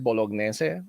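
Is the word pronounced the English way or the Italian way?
Italian. The word is said with an Italian pronunciation. "in Italian, it's um, they, they pronounce it bolognese"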